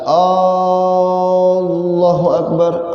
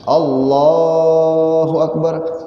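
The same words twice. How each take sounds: First: The first vowel of Allah is long. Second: The second vowel of Allah is long. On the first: It asks whether God is greatest. The speaker calls it wrong. "artinya apakah Allah yang maha besar?" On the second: It declares that God is greatest. The speaker calls it right. "kalau anang kedua dari kata Allah tadi"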